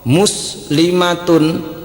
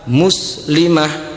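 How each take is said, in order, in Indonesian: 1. Kata ini berakhir dengan bunyi 'tun'. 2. Kata ini berakhir dengan bunyi 'h' yang lembut.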